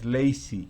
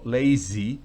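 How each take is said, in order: First: The middle consonant is a hissing S sound. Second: The middle consonant is a buzzing Z sound. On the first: The speaker calls it wrong. "no es lazy" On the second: The speaker calls it right. "Z nuevamente, ... sino lazy"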